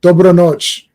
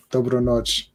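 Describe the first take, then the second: First: Loud Croatian. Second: Said in the usual way. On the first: Shown as a demonstration. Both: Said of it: "That's good night".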